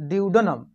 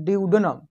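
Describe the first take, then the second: Both takes have the same delivery.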